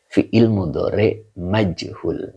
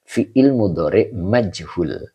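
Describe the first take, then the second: First: Slow, clear repeat. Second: Slow, clear reading. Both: Shown as a demonstration. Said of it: "Ini dibaca yuqalu".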